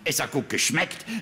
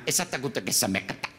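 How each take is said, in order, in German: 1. Normale deutsche Konsonantenverbindungen ohne zusätzliche Vokale. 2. Italienischer Akzent mit zusätzlichen Vokalen zwischen den Konsonanten. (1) "kein Pizzakellner wird sie fragen" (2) "er wird sagen"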